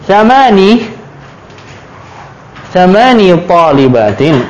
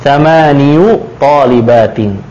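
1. Kata bilangan itu berakhir dengan bunyi 'i' panjang. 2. Kata bilangan itu berakhir dengan tambahan bunyi '-yu'. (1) "Ketika 8, thamani" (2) "Aslinya dia dhammah juga. Thamaniyu"

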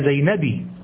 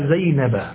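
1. ينتهي الاسم بكسرة قصيرة 'i'. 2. ينتهي الاسم بفتحة قصيرة 'a'. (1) "ولا زينبي" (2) "تقول ذهبت إلى زينب"

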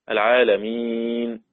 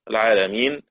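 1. حرف المد قبل الآخر يُمَدّ توسطًا. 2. حرف المد قبل الآخر يُمَدّ قصرًا.

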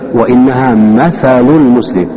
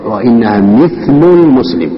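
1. تُنطق الكلمة mathal، بفتحة بعد الميم والثاء. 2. تُنطق الكلمة mithl، بكسرة بعد الميم ولا حركة بعد الثاء. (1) "بالفتح" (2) "بكسر الميم وسكون الثاء"

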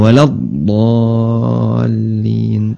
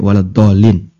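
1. Vokal pada dolin dibaca panjang. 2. Vokal pada dolin dibaca pendek. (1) "Tapi tetap panjang" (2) "walad dolinya dibaca pendek"

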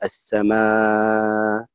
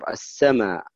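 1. يُمَدّ حرف المد الأخير مدًّا متوسطًا. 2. يُمَدّ حرف المد الأخير مدًّا يسيرًا. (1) "يعني لك التوسط" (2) "ويقصر يعني لك القصر"

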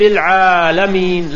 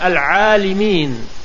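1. الحركة بعد اللام هي 'a'. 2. الحركة بعد اللام هي 'i'.

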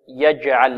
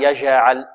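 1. صوت الجيم فيه انحباس تام يوقف الصوت. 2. صوت الجيم ناعم، من دون انحباس تام. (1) "والجيم هنا شديدة، فيها انحباس في الصوت" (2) "لا نقول ألم يجعل أو يجعل"

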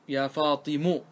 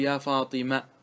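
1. ينتهي الاسم بالحركة 'u'. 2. ينتهي الاسم بالحركة 'a'. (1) "نبنيها على الضم كأن التاء غير موجودة" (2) "على لغة من ينتظر منك أن تنطق بالتاء"

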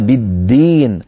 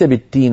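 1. صوت d مجهور تماماً. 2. صوت d مهموس، يكاد يكون تاء. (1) "وإنما" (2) "ليس"

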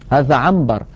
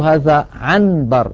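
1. النون قبل الباء تتحول إلى ميم. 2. يُنطق النون الواضحة قبل الباء. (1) "يقول هذا عنبر" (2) "ولا يقول هذا عنبر، لا ينطق النون صريحة هكذا"

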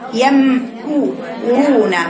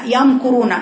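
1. الراء فقط مفخمة، و'ya' تبقى مرققة. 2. 'ya' مفخمة مثل الراء التي بعدها. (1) "الراي المفخمه فقط" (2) "خطا"

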